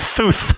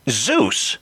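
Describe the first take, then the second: First: The name begins and ends with th sounds. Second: The name begins and ends with z sounds. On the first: "responded with" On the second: "pronouncing the words using my tongue"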